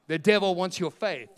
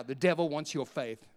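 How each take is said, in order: First: The devil wants your faith, louder and stressed on devil; emphatic repeat. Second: Said in the usual way. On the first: Shown as a demonstration. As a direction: hammer it home the second time. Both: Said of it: "repeated louder".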